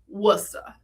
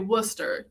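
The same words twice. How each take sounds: First: The final r sound is dropped. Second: The final r sound is pronounced. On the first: This is how locals say it. The speaker calls it right. "you say Worcester, because we don't like ours in this part of the world" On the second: This is how outsiders say it. The speaker calls it wrong. "you don't say Worcester"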